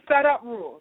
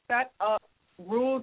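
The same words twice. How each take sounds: First: The phrase is spoken at a normal pace. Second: The phrase is spoken slowly and deliberately.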